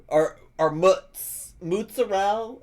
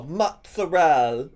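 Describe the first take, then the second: First: "mozzarella" said as "mutsa-rell", slow and high with a rising end; weird mozzarella. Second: "Mozzarella" drawn out slowly, clipped at the end as "mutsarell"; her odd way. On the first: Mom from Fifty Shades of Bob, her weird-ass mozzarella. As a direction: drag out "mutz" and float "mozzarella" up high. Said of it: "she just said it in some kind of weird-ass way". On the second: Mimicking how the Fifty Shades of Bob mom said it, slow and rising. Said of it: "She'd go". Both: Retold or imitated.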